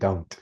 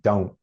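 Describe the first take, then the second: First: The final t sound is clearly pronounced. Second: The final t sound is dropped.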